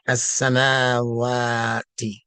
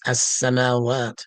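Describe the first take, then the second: First: The middle vowel is lengthened and drawn out. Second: The middle vowel is short, not drawn out. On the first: It signals something long lasting. "But Allah gave it a medda in both places" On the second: It is the ordinary everyday word. "In ordinary Arabic, it's just as samawat"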